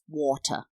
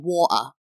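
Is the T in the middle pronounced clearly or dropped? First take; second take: clear; dropped. First: The middle T is pronounced clearly. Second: The middle T is dropped, working-class accent.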